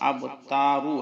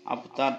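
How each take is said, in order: First: The word ends with a short u vowel. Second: The word ends on the r consonant. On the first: This is the full written form of the word. "আব তারু আছে" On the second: The reader stops at the end of the verse. "ওয়াকফ করার কারণে আবতার বলবো"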